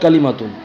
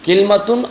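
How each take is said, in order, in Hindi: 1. यह 'ka' से शुरू होता है, l के बाद स्वर है। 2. यह 'kil' से शुरू होता है, l के बाद कोई स्वर नहीं।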